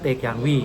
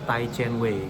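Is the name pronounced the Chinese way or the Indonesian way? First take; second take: Indonesian; Chinese. First: The name is said with Indonesian-style pronunciation. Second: The name is said with Chinese-style pronunciation. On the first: This is how locals in the country say it. "kalau orang Indonesia ngomong ya" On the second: This is the original pronunciation of the name. "kalau secara Cina tuh lo, lo nyebutnya"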